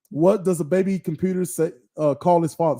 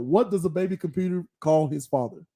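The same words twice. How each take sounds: First: Stumbling through the joke, words out of order; garbled first try at the riddle; fumbled joke setup. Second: Said in the usual way. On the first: Real, not acted. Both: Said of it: "Sorry, I messed it up".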